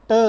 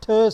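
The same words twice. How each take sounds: First: "t" as a pure ट, no puff; unaspirated t. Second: "th" as ठ, with a puff; aspirated t. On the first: Teacher contrasting two t sounds, "t" unaspirated. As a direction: say "t" loud with the breath held back. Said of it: "non aspirated sound है". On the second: Teacher contrasting two t sounds, "th" as aspirated t. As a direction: release "th" loudly as a breathed t. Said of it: "यहाँ पे ये aspirated है". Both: Shown as a demonstration.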